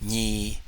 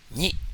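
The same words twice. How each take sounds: First: The syllable is drawn out with a long tone. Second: The syllable is short with a plain tone.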